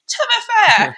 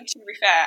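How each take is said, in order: First: It is said in a ridiculous mocking voice. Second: It is said in a normal voice.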